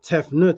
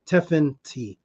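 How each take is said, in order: First: The name ends with a 'nut' sound. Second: The name ends with a 'tee' sound. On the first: The speaker calls it wrong. "they pronounce it Tefnut as if it's N U T" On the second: The speaker calls it right. "but it's actually Tefent T"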